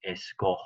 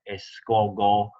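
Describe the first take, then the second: First: A throaty h sound comes before the final o. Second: A hard g sound comes before the final o. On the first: The speaker calls it right. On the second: The speaker calls it wrong.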